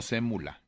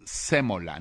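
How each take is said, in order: First: "sémula" with a u in the middle; mistaken word. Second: "sémola" with an o in the middle; correct word. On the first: Host rejecting the misread word, "sémula" pronounced with u. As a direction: say "sémula", u instead of o. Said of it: "no sémula". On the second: Host correcting himself on air, "sémola" pronounced with o. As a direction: say "sémola", clear o, stressed first syllable. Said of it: "La palabra correcta es sémola". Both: Shown as a demonstration.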